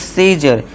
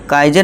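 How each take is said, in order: First: It begins with an s sound and long 'ee'. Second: It begins with a k sound and 'ai'. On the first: The speaker calls it right. "अब इसे हम क्या पढ़ेंगे" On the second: The speaker calls it wrong. "अब इसे हम काइजर नहीं पढ़ेंगे"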